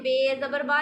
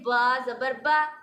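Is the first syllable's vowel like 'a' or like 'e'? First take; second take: e; a. First: The first letter name is said with an 'e' vowel. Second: The first letter name is said with an 'a' vowel. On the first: The speaker calls it wrong. "नहीं बोलना, वो गलत हो जाएगा" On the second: The speaker calls it right. "ऐसे ही बोलना है"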